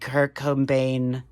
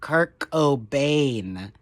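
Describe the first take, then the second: First: The name is said loosely, without careful articulation. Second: The name is said slowly with every sound articulated.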